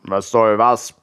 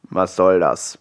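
First: Lower, cheeky odd voice mocking the wolf; a saucy stomach answering back. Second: Low wolf growl; a low, grumbling wolf asks. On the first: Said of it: "antwortete Willis Magen frech". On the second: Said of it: "knurrte er". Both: A narrator's reading.

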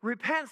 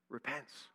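First: "repents" lifted higher with a rising end; emphatic repents. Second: "repents" dropped low and much softer; hushed repents. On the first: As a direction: push "repents" up and out to the congregation. Sermon climax, restated emphatically. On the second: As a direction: let "repents" fall almost to nothing. Sermon climax, hushed word. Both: Acted.

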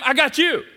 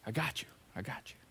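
First: Raised, emphatic promise to the listener; firm reassurance. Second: Soft, breathy whisper of comfort; whispered reassurance. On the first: Jesus assuring his worried followers, emphatic and raised. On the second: Jesus comforting a worried follower, in a soft whisper. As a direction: hush it like a secret promise. Jesus's promise repeated as a hush. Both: Pretend.

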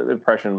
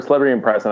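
First: Said in the usual way. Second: "impression" said with an S in place of the SH; "impression" with a hissed S, no SH; slipped pronunciation. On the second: Real, not acted. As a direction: slip to "im-press-un" in "impression". Slip, corrected in next line.

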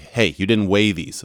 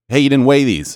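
First: Said in the usual way. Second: Loud, higher mock scolding; retelling how the grocery store lady snapped at him, loud; imitating a sharp cashier. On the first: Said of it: "behind the counter was like". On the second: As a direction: bark it like the annoyed grocery clerk. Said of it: "Of course, this was in Polish".

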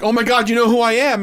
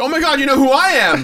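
First: Amazed disbelief. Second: Echoed amazement. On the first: Fan amazed Jake knows him. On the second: Jake echoes the same amazement. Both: Retold or imitated.

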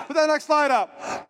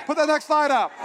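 The two takes are said the same way.

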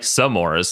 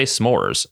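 First: S'mores in two syllables, "suh-MORZ"; S'mores like Samoa. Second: S'mores in one syllable, "SMORZ"; s'mores as others say it. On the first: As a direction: put an "uh" between s and m in S'mores. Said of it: "I say it like a Samoa". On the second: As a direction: run the s straight into the m in s'mores. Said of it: "some people say s'mores". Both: Shown as a demonstration.

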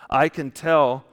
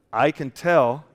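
Both takes have the same delivery.

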